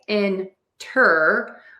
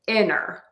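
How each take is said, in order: First: The T sound is clearly pronounced. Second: The T sound is dropped entirely. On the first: "You can say inter with a T" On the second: "drop the T altogether and say inner"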